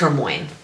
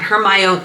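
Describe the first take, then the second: First: The ending is read with letters swapped, like 'moyne'. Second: The ending is said in full, like 'my-oh-nee'. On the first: The speaker calls it wrong. "I read it as Hermione" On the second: The speaker calls it right. "not Hermione"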